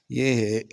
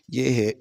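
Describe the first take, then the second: No difference in how they are said.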